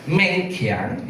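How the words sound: The name is said as Meng Kiang. This is the speaker's usual form of the name. "Seperti nama saya Meng Kiang"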